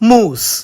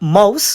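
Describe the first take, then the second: First: The vowel is a long 'oo' sound. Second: The vowel is the standard 'ow' diphthong. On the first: "Scottish accent is moose" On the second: "Mouse we say"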